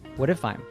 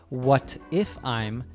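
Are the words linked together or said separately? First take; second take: linked; separately. First: The words run together with a d-like t. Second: The words are said separately with a clear t. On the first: "She said" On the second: "She doesn't say"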